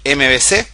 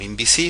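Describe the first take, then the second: First: The letters are named with Spanish sounds. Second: The letters are named with English sounds.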